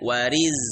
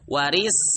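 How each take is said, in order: First: The word ends in a voiced z sound. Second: The word ends in a voiceless s sound. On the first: The speaker calls it right. "itu zai" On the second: The speaker calls it wrong. "pakai sin jangan"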